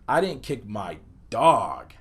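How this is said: The word dog carries the emphasis. Something other than the dog was kicked. "place the emphasis on the word dog"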